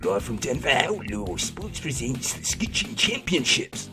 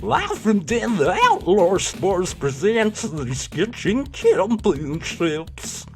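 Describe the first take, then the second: First: It is read in the speaker's usual accent. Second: It is read in a rural American accent. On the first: "I suppose you should be American, really" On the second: "I can only do sort of country bumpkin hick accent"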